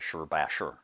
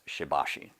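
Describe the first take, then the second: First: The first and last syllables end in 'er'. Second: The first and last syllables end in 'ee'. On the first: The speaker calls it right. "the proper pronunciation is something closer to" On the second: The speaker calls it wrong. "almost everybody we run across pronounces the name of the art as"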